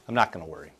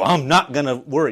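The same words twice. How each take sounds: First: It is said in a calm, easy way. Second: It is said in a forced, worked-up way. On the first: The speaker is simply letting go of worry. The speaker calls it right. "No, it's just like" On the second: The speaker is straining to talk themselves out of worry. The speaker calls it wrong. "We're not talking about working up"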